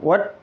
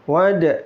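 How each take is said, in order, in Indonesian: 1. d akhir dihentikan datar, tanpa pantulan. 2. d akhir dilepas dengan pantulan bergema. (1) "bukan wad" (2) "Ada qalqalahnya"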